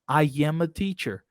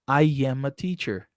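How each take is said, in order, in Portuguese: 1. Um som de y liga I suavemente a am. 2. Um som de y liga I suavemente a am.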